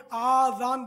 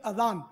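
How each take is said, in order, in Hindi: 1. पहला स्वर लंबा है। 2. पहला स्वर छोटा है। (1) "ये आजान बोलते हैं" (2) "अलिफ पर जबर आएगा"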